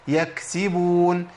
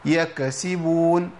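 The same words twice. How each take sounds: First: The kaf is released with breath flowing through. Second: The kaf bounces with an added vibrating release. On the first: The speaker calls it right. "ناخد بالنا من همس الكاف" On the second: The speaker calls it wrong. "في ناس بتقلقلها، بتحركها، بتهزها"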